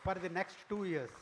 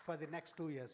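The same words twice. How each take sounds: First: "for the next two years" called out louder and higher, each word weighted; emphatic announcement. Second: Said in the usual way. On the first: Real, not acted. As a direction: announce it proudly, with force.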